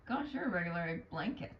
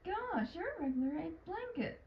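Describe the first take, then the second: First: The line is said in a rude tone. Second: The line is said in a sincere tone. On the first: "That's more rude" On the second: "that one sounded more, I guess, genuine"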